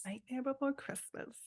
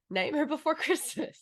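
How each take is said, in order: First: Whispered title; whispering. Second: Before stressed and high in Nightmare Before Christmas. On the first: Real, not acted. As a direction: breathe it, no voice. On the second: Shown as a demonstration. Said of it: "No, Nightmare Before Christmas".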